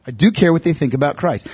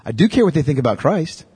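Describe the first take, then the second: First: "do" pressed firm and falling; stress on do. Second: Said in the usual way. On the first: Shown as a demonstration. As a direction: lean hard on "do". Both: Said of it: "repeats for emphasis".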